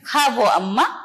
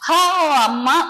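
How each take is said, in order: First: The word before अम्मा begins with a v sound. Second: The word before अम्मा begins with a plain o. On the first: "वो सुनाई देता है" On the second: "हमारा उच्चारण तो होता है"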